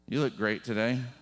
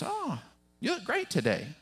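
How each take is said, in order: First: It sounds insincere and sarcastic. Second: It sounds warm and sincere.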